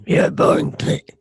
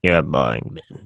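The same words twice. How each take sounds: First: Raspy demon whisper. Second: Low growling demon voice. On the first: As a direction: hiss it like a demon, unvoiced. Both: Pretend. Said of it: "my inner demon voice".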